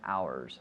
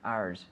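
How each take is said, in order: First: It is said fully, sounding like hours. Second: It is said quickly in a shortened form. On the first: "which is pronounced the same as one hour" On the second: "when we speak quickly"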